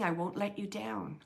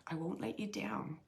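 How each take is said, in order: First: Said in the usual way. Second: A soft unvoiced whisper; whispered repeat of his words. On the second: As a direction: breathe it like a secret. Repeating the spirit's message.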